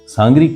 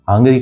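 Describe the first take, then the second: First: The word begins with an s sound. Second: The word begins with an h sound. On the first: "मतलब" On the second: "हमारी राजस्थानी भाषा की कई बोलियों में सह को है बोला जाता है।"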